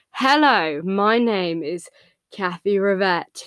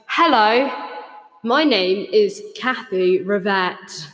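First: Slow, stiff posh robot greeting; a hint of a posh robot. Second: Slow announcement through an echo effect. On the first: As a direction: sound like a prim posh robot. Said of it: "should I do my posh, my posh robot". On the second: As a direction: greet them slowly into the echo. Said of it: "turn echo mode on". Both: Shown as a demonstration.

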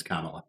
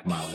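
First: Kamala said KAH-muh-luh, stress on first syllable; correct pronunciation. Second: Kamala said kuh-MAH-la, stress on second syllable; wrong pronunciation. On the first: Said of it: "Her name's not Kamala". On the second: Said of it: "It's Kamala". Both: Shown as a demonstration.

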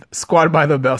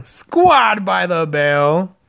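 First: Said in the usual way. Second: "Squad by the Bell" stretched out slowly like a jingle; drawn-out name. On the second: Shown as a demonstration. Announcing the podcast name, slow, showy drawl. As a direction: draw out "Squad by the Bell" for show.

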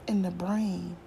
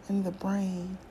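The two takes are said the same way.

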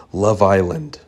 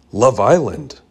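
First: Said in the usual way. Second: Mild disbelieving echo of "Love Island?"; boy echoes the aunt's answer, mildly incredulous. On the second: A narrator's reading. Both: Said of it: "I asked incredulously".

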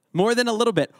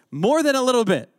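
First: "than" stressed, "More" kept lighter. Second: "more" punched high and loud, the rest falling; stress on MORE. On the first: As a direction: repeat it, hitting the word than. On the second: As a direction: lean hard on the word more, pitched up. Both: Shown as a demonstration.

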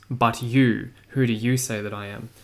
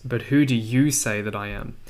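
First: "But you" set apart, "you" hit hard before the question; stress on you. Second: Said in the usual way. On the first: Shown as a demonstration. Teacher showing the Greek stress on "you" to the class. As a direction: lean on "you", then ask "who do you say that I am?". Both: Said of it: "It's quite emphatic on the you".

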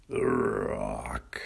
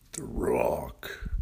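First: Deep, low announcer voice. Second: Deep, low whispered title. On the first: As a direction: boom the title like a trailer voice. Podcast intro title, voiced. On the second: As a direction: breathe the name low and secret. Podcast intro title, whispered. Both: Acted.

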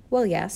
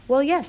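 First: Meeker, level reply; sheepish husband under a scolding; subdued admission. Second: High, loud reply; pitched up, caught out; defensive admission. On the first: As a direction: concede it lamely. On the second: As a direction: admit it under scolding. Husband answers scolding wife. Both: A narrator's reading.

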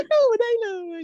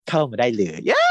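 First: Very high, stretched sing-song เข้ามาได้เลย; high drawn-out tease. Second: Said in the usual way. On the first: Shown as a demonstration. Host showing how the actor said the line, very high and coy. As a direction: lift เข้ามาได้เลย way up and draw it out coyly. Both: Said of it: "ทำเสียงแบบนี้ด้วยนะ".

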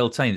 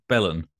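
First: "Beltane" with a full TAIN ending; questioned pronunciation. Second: "Belen" with a reduced ending, BELL-un; alternative pronunciation. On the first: Cohost checking how it is pronounced, full-vowel pronunciation. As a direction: say "Beltane" as bel-TAIN, both syllables clear. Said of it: "So is that pronounced". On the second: Cohost testing a Samhain-like version, reduced pronunciation. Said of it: "It's not pronounced". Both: Shown as a demonstration.

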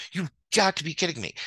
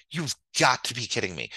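First: Higher, incredulous repeat; exasperated disbelief. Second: Said in the usual way. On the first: Real, not acted. Venting to viewers about a lucky trade, higher exasperated disbelief. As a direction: throw up your hands in disbelief.

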